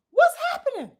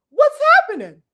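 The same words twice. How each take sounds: First: Much higher but at normal volume, rising at the end; puzzled question. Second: Much higher and louder, falling at the end; exasperated question. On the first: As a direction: ask it again in genuine puzzlement. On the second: Asking the viewers about the fighter's change of heart, loudly exasperated. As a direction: demand an answer, baffled. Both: Real, not acted.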